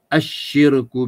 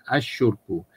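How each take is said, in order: First: The vowel after the sh sound is i. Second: The vowel after the sh sound is u. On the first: The speaker calls it right. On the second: The speaker calls it wrong.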